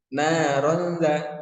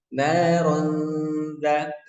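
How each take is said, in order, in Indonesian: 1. Bunyi sengaunya diburu-buru dan dipotong pendek. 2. Bunyi sengaunya ditahan dua ketukan. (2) "didengungkannya juga dua harokat"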